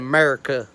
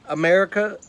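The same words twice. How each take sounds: First: The word starts without its first vowel sound. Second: The word starts with its first vowel sound.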